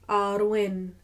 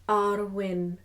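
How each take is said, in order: The two takes are said the same way.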